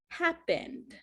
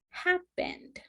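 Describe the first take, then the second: First: The vowel before the final D is dropped. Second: The vowel before the final D is dropped.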